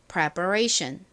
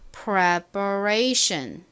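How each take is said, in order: First: The word is said at normal speed. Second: The word is said slowly.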